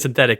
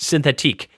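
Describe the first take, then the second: First: The last syllable is said like ick. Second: The last syllable is said like eek. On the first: The speaker calls it wrong. "You were you were saying synthetic in the last episode, and no one agrees with you" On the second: The speaker calls it right. "It's definitely pronounced synthetique"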